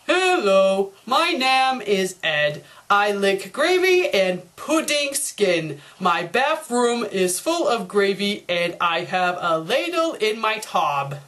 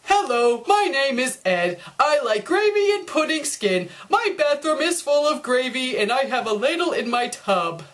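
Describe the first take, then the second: First: Slow, lower, dopey reading of a badly spelt page; dumb Ed reading. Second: Clean, even reading of the fixed essay; corrected version. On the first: Double D reads Ed's error-filled essay, slow and dopey. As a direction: stumble through it like a clueless kid. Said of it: "Ed's paper". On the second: Double D shows the corrected essay, tidy and clear. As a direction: read it neatly and properly. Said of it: "if Ed bothered to fix up his essay". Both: Shown as a demonstration.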